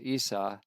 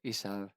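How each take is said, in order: First: The name ends in a vowel sound. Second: The name ends in a v sound.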